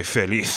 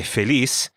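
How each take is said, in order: First: "feliz" ending in TH; Spain pronunciation. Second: "feliz" ending in an S sound; Latin American pronunciation. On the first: Teacher contrasting regional accents, Spain's final TH in "feliz". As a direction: say "feliz" as feh-leeth. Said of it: "and in Spain". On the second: Teacher contrasting regional accents, final S in "feliz". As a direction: say "feliz" as feh-lees. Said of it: "in Latin America". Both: Shown as a demonstration.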